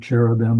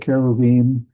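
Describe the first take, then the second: First: The word is given the usual English pronunciation. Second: The word is given a Hebrew-style pronunciation.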